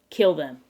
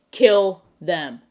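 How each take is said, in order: First: Quick, matter-of-fact "kill them"; "kill them" tossed out firmly, without drawing it out; brisk mock order. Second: Loud, drawn-out "Kill them", each word separate; emphatic mock order. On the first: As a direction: give "kill them" as a short deadpan instruction. First, brisker take of repeated order. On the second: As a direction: punch "Kill", then land "them" apart.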